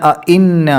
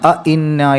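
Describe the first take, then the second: No difference in how they are said.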